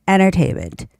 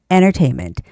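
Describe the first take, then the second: No difference in how they are said.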